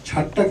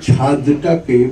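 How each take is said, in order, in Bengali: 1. d ধ্বনিটি পরের t-এর সঙ্গে মিশে যায়। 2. d ধ্বনিটি t-এর আগে স্পষ্টভাবে উচ্চারিত হয়। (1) "কিন্তু বলেননি, আজকাল কিন্তু সকলেই তাই বলেন" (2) "দটা পরিষ্কার শোনা যায়"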